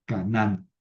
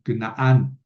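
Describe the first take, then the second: First: Said in the usual way. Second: Canaán said as Ke-naan, long second a; Canaán the Hebrew way, kenaan; Hebrew pronunciation. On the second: Shown as a demonstration. (pronunciación hebrea: Kenaán) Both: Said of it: "Perdón, Cana".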